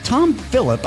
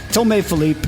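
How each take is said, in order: First: The name is said with a plain English accent. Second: The name is said with a French accent.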